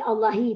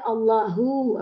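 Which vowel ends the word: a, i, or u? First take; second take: i; u. First: The word ends with an i vowel. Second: The word ends with an u vowel. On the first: The speaker calls it wrong. "tak boleh" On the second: The speaker calls it right. "mesti hu"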